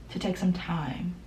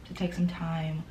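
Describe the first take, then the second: No difference in how they are said.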